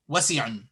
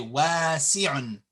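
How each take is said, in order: First: All the vowels are said short. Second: One vowel is clearly lengthened. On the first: The speaker calls it wrong. "You don't say" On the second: The speaker calls it right. "You say"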